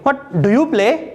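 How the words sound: The stress falls on the words do you. "Stress कहां पे? डू और यू पे।"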